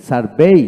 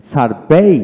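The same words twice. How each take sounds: The two takes are said the same way.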